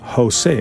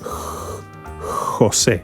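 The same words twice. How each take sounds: First: The first sound is a plain English H. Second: The first sound is a soft throaty hiss. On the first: "like the English H in Jose. ... That's the easy pronunciation" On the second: "The real pronunciation is like you are going to make a cat sound"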